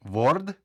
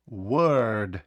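First: «Word?» read letter by letter, «vord», rising; spell-read «Word?» as «vord»; wrong reading. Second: «Word» with an E-like vowel, «werd»; correct vowel. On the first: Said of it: "Ні". («Word?» як «ворд», неправильно) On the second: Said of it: "Більше схоже на звук «Е»". («Word» зі звуком ближче до «Е») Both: Shown as a demonstration.

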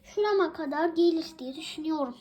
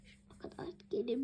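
First: Said in the usual way. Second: Soft, fast whispered aside. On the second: Pretend. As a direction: whisper it quickly, secret-like. Repeats the phrase as a whisper.

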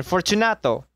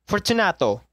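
First: Lightly voiced second call; calling again. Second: Lightly voiced call into the dark. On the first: Narrator calling the name once more into the niche. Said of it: "I called again". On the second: Narrator calling the name into the walled niche. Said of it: "I called aloud".

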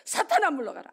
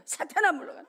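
First: Firm rebuke, calling out louder; rebuking Satan. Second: Raised commanding rebuke; rebuking Satan. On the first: Preacher reenacting his prayer, firm loud rebuke. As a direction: command Satan to leave. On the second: Preacher reenacting his prayer, raised commanding rebuke. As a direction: order the devil away. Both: Retold or imitated.

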